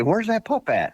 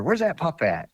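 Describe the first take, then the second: First: Pitched way up, a mock old hunter's question; imitating Joe. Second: Higher-pitched mock question; the puzzled buddy again, voice lifted; imitating Joe. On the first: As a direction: play the puzzled buddy, voice jumping high. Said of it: "he'd say". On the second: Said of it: "And a few minutes later".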